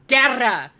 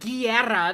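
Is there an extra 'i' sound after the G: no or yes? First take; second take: no; yes. First: The G goes straight into an 'e' sound. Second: An extra 'i' sound follows the G. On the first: The speaker calls it right. "It's Guerra" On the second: The speaker calls it wrong. "It's not Guerra. There's no fucking I in his last name"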